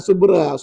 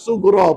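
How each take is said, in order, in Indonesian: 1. Huruf tengah itu bunyi b biasa. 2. Huruf tengah itu bunyi gh dari tenggorokan. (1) "Ustaz tak nak dengar lagi qalqalah subra, bukan subra" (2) "sughra puan-puan"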